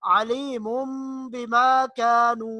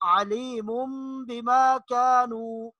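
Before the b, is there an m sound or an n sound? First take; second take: m sound; m sound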